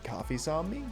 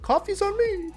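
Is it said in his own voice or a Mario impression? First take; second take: own voice; Mario impression. First: It is said in his own voice. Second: It is said in a Mario impression.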